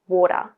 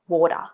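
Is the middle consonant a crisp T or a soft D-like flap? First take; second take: D-like flap; D-like flap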